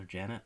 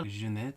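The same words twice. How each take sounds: First: Said in the usual way. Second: Put-on name said in a French accent. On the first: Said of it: "everybody else just calls her Janet". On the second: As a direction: say Jeanette the French way. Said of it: "says her name in a French accent".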